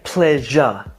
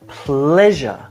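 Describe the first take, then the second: First: Both syllables get the same stress. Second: One syllable is stressed more strongly. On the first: The speaker calls it wrong. "He didn't say pleasure equally" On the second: The speaker calls it right. "each having their own syllable stress or emphasis within the word"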